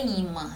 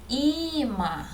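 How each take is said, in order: First: Said in the usual way. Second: "Imã" with the I stretched high, then falling; stressed first syllable. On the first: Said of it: "Eu vou mostrar para vocês". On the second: Shown as a demonstration. Teacher showing students the tonic syllable, stressed I in "Imã". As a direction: lean long and high on the first vowel of "Imã". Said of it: "A sílaba tônica é o i".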